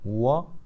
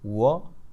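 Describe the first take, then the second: The two takes are said the same way.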